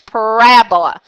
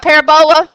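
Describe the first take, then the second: First: The stress falls on the second syllable, rab. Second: The stress falls on a syllable other than the second. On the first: "the emphasis is at the word rab" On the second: "if you remember it by parabola"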